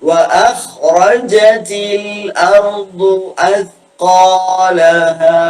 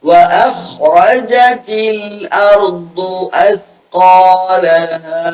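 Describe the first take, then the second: No difference in how they are said.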